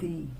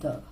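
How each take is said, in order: First: It is the form used before a vowel. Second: It is the form used before a consonant. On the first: "when the word is beginning with a vowel, we use, we call it the" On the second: "if the word is beginning with a consonant, we call it the"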